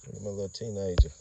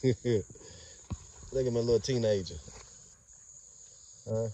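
First: Said in the usual way. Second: Slow, higher, doting coo. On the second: Real, not acted. Owner cooing slowly at his young dogs. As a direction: stretch it out fondly over the pup.

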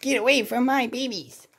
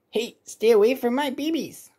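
First: High protective warning; cartoon mother voice. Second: High squawky warning; cartoon bird voice. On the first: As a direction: chase them off, fierce but cartoony. Mother alligator warns raccoon. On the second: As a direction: shoo them off like a bird. Mother bird warns intruder.

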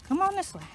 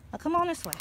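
First: Even higher, louder call to the dogs; repeated high dog call; higher coaxing call. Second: High coaxing call to the dogs; high sing-song dog call. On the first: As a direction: pitch it up further to urge them on. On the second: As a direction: lift it up to call them along. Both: Real, not acted.

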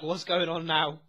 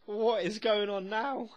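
First: Said in the usual way. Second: Drawn-out high disbelief; slow, high repeat. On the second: Shown as a demonstration. Reacting to the show, asking again slowly and high. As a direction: say "What is going on now?" higher and slowly, stretching "going".

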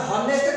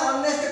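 First: ହନେଷ୍ଟ begun on a breathed H sound; honest with H sounded. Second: ଅନେଷ୍ଟ with the H left silent; honest with silent H. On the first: Teacher asks class which way we say honest, H sounded. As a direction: say ହନେଷ୍ଟ with an audible H at the start. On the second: Teacher asks class which way we say honest, H silent. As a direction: say ଅନେଷ୍ଟ starting straight on the vowel, no H. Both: Shown as a demonstration. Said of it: "ହନେଷ୍ଟ କହୁଛେ ନା ଅନେଷ୍ଟ କହୁଛେ".

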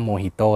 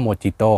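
First: Mojito said mo-HEE-to with an h sound; correct reading. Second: Mojito said with a hard j sound; the j in Mojito said as in jump; wrong reading. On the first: Host giving the English usage: Mojito with an h. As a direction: turn the j in Mojito into an h. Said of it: "เขาใช้คำว่า Mojito เลย". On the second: Host showing what English speakers avoid: Mojito with a j. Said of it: "เขาก็จะไม่พูดว่า". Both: Shown as a demonstration.

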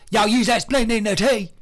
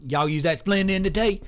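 First: Higher, louder hammed-up Southern accent; Southern yokel voice. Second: Lightly put-on Southern accent, a bit higher; a hint of a slow Southern yokel; Southern drawl. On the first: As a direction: push the Southern twang up and out. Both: Shown as a demonstration. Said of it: "Maybe he talks like this".

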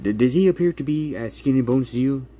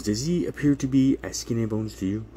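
First: Pointed challenge. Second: Said in the usual way. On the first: Retold or imitated. Attorney confronts caseworker.

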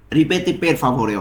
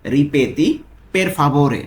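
First: "ripeti per favore" drawn out word by word; slow teaching pace. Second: Said in the usual way. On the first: Shown as a demonstration. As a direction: say it slowly for students to repeat. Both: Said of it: "এর Italian কি হবে?".

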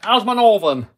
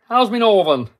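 First: Put-on first try at a northern English accent. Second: Broader northern English, "my" as "me"; northern accent. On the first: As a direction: loose northern English twang. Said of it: "Am I northern accent?". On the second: Pretend. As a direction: lean harder into the northern accent. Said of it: "I'm not doing it right today".

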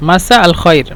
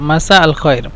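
No difference in how they are said.

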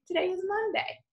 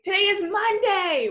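First: Said in the usual way. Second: "Today is Monday" lifted high and bright with excitement; excited high exclamation. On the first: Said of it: "would just say". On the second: Shown as a demonstration. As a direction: say it like it's big news. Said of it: "with an exclamation point".

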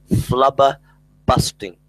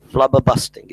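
First: Flubberbusting drawn out slowly, each syllable laid down; slow deliberate coinage. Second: Said in the usual way. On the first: Shown as a demonstration. Presenting his invented word to listeners, slow and deliberate. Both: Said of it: "a word that I've invented".

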